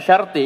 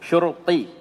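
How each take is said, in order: First: The first syllable has an 'a' vowel. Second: The first syllable has a 'u' vowel. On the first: The speaker calls it wrong. "jangan- bukan syarti ya" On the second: The speaker calls it right. "Dhammah shinnya"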